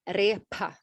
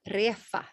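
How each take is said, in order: First: The middle consonant is a p sound. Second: The middle consonant is an f sound. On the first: "they will not say" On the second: "they will say refa"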